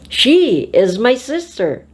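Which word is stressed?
She. The stress falls on the word she. It is this girl, not another girl. "not the other girl"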